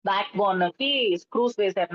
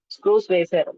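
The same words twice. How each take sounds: First: Said in the usual way. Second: screws said much louder, falling; emphatic loud repeat of screws వేశారు. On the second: Real, not acted. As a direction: hit screws hard and loud.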